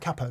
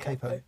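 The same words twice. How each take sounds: First: The first vowel sounds like the one in cap. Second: The first vowel sounds like the one in cape. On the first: The speaker calls it right. "it's a capo, Dan. Capo" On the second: The speaker calls it wrong. "not capo"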